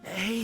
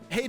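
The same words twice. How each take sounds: First: It is said in a put-on character voice. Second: It is said in his normal voice.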